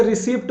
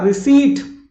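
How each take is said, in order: First: "रिसिप्ट" with sounded p; the wrong "रिसिप्ट", short vowel and -pt; mispronounced receipt. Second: "रिसीट" high and loud, silent p; emphatic high "रिसीट"; corrected receipt. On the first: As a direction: say "रिसिप्ट" as ri-SIPT. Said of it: "रिसिप्ट मत बोलना". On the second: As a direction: say "रिसीट" as ri-SEET, long ee. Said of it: "क्या बोलना?". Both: Shown as a demonstration.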